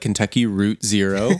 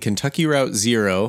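First: Route is said to rhyme with boot. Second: Route is said to rhyme with out.

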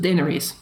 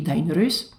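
First: It also changes the I sound. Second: It keeps every original High Valyrian sound. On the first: The name has been changed further by local speakers. "because the I is probably also not super common, you go to Daenerys" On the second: This is the name in its source language. "her name would be Daenerys in High Valyrian"

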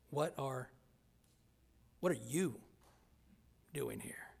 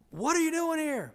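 First: The tone is harsh and hostile. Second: The tone is warm and delighted. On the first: The visitor is not wanted at all. "But then it could be really bad" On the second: The visitor is very welcome. "That's great news if they say it like that"

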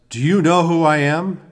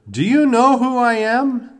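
First: It is said loudly. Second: It is said even more loudly.

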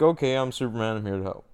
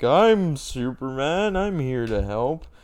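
First: It sounds casual and matter-of-fact. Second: It sounds earnest and heroic, like a Boy Scout.

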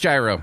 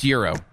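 First: The word begins with a j sound. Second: The word begins with a y sound. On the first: The speaker calls it wrong. "I don't think it's gyro" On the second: The speaker calls it right. "I think it's Euro"

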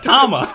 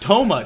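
First: The first vowel sounds like 'ah'. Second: The first vowel sounds like 'oh'. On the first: The speaker calls it right. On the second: The speaker calls it wrong. "Not Toma"

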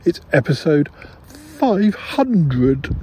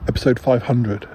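First: It is said in an excited, over-the-top way. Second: It is said in a calm, sensible way.

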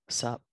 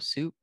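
First: The vowel is a short uh sound. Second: The vowel is a long oo sound. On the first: The speaker calls it right. "if you pronounce it correctly, ... It's like sup" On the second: The speaker calls it wrong. "it's not like bowl of soup"

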